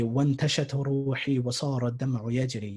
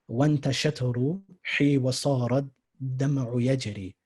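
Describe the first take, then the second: First: The line is read at a normal, flowing pace. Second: The line is read slowly, syllable by syllable. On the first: "afterwards I'm just going to read the whole thing" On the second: "I'm going slow now"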